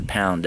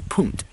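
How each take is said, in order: First: Said in the usual way. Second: "punt" said with a short oo vowel; local pronunciation. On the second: Shown as a demonstration. Demonstrating local word for pound, "punt" with oo. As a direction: say "punt" with oo in place of ow. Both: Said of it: "That's how they pronounce".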